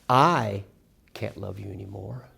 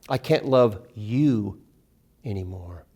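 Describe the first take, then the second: First: The stress is on I. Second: The stress is on you.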